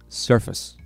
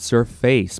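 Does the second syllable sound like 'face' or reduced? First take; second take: reduced; face. First: The second syllable is short and reduced. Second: The second syllable sounds like the word face. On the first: The speaker calls it right. "you don't read it like that... You say surface" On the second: The speaker calls it wrong. "Make sure it's not surface, because it's not. It looks like face"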